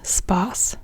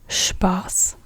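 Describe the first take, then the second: First: The word begins with a plain s sound. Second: The word begins with a sh sound. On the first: The speaker calls it wrong. "and not Spaß" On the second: The speaker calls it right. "you say Spaß"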